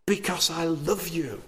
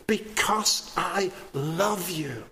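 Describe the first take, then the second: First: Said in the usual way. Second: "Because I love you" softer, every word drawn out; slow emphatic repeat. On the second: Acted. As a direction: space out "Because I love you" slowly and softly, weighting "love".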